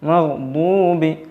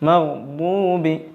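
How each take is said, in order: No difference in how they are said.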